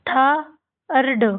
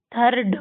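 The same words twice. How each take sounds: First: थर्ड split slowly into tha and rd; sounded out. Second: Said in the usual way. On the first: Shown as a demonstration. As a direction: say थर्ड in two drawn-out parts with a gap. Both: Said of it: "आपको इसको कैसे पढ़ना है".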